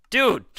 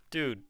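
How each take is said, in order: First: Yelled high and loud, exasperated; shocked shout. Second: Said in the usual way. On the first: Real, not acted. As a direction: shout it out in disbelief. Reacting to something in game.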